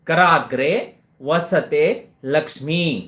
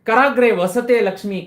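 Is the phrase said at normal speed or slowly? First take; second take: slowly; normal. First: The phrase is said slowly for dictation. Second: The phrase is said at a normal speed.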